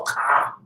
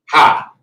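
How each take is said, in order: First: The syllable begins with a hard k sound. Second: The syllable begins with a breathy h sound. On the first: The speaker calls it right. "That letter is Ka" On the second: The speaker calls it wrong. "But they pronounce it ha"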